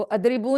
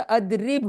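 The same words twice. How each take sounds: First: अदरिबू with a long "oo" on the end; wrong vowel ending. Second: अदरिब stopped on the final b, no vowel after it; slow अदरिब, closing on a bare b; sukoon ending. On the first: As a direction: finish अदरिबू on a voiced u vowel. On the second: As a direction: end अदरिब on the consonant. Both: Shown as a demonstration. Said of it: "उसमें सुकून आता है".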